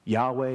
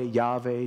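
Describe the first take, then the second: First: Yahweh said as YAH-way with a w; Yahweh, the w sound, first variant; Yahweh pronunciation. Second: Yahweh said as YAH-vay with a v; Yahweh, the v sound, second variant; Yahweh pronunciation. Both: Shown as a demonstration. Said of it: "nobody really knows how to pronounce".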